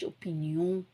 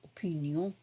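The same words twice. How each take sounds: First: It is pronounced the French way. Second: The same.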